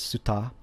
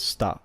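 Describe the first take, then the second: First: Suta as "soo-tah", with the u fully said; both syllables sounded. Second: Sta as "stah", s running straight into t; silent soft u. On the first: Teacher reading out the written syllables, u fully sounded. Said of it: "since the u is very si". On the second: Teacher showing how U flows into what follows, u dropped. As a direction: say sta in one syllable, dropping the u. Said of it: "this would be pronounced as". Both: Shown as a demonstration.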